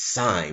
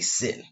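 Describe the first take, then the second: First: The vowel is long, rhyming with 'line'. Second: The vowel is short, rhyming with 'pin'. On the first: The speaker calls it right. "it is sine" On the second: The speaker calls it wrong. "We don't say sin"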